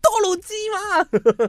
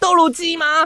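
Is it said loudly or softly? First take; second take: softly; loudly. First: It is said quietly. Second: It is said very loudly.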